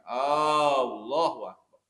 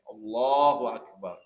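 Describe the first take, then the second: First: The first vowel is drawn out long. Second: The first vowel is kept short. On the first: It asks whether God is great. The speaker calls it wrong. "ketika kita memanjangkan hamzah" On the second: God is great. The speaker calls it right. "Jadi harus tepat bacanya"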